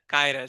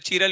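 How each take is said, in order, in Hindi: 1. यह 'k' ध्वनि से शुरू होता है, जैसे 'kyral'। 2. यह 'ch' ध्वनि से शुरू होता है, जैसे 'cheeral'। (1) "इसका एक्चुअल प्रोनाउंसिएशन क्या है?" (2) "लोग अलग अलग प्रोनाउंस करते हैं"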